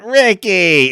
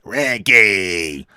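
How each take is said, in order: First: It is said in a normal, lighter voice. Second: It is said in a deep, gravelly voice. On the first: "It's not Ricky" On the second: "Lucy's voice dropped forty octaves because of all of her smoking"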